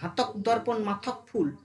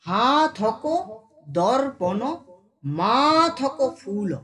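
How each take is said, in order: First: The first word is said short, without stretching. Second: The first word is drawn out and lengthened. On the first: The speaker calls it wrong. "রং উচ্চারণ" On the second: The speaker calls it right. "দেখো হাতক টানছি এখানে"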